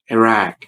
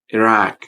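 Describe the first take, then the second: First: It uses the 'i' and 'ah' vowel sounds. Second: It uses the 'i' and 'ah' vowel sounds.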